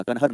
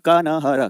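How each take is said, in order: First: Said in the usual way. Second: Kanhar broken slowly into syllables; sounded-out name. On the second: Shown as a demonstration. Teacher telling the class the river's name, sounded out slowly.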